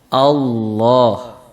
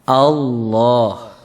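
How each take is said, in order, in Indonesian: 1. Bunyi L dibaca tebal dan berat. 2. Bunyi L dibaca tebal dan berat.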